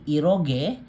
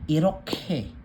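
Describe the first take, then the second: First: The last syllable starts with a soft g. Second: The last syllable starts with an aspirated k. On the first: The speaker calls it wrong. "hindi iroge" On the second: The speaker calls it right. "kundi iroke"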